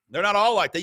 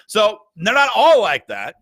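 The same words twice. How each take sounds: First: Said in the usual way. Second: "all" punched, louder, said firmly; stress on all. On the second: Shown as a demonstration. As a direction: lean hard into "all" to make the point. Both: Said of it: "repeats for emphasis".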